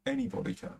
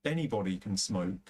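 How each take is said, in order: First: Anybody jumps much higher, falling at the end; emphatic repeat. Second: Said in the usual way. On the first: Real, not acted. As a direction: hit Anybody high and let it drop. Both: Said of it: "repeats the point for emphasis".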